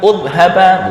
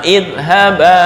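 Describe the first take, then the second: First: The word begins with a u vowel. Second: The word begins with an i vowel. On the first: The speaker calls it wrong. "bukan udhaba" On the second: The speaker calls it right. "ini sama idhaba"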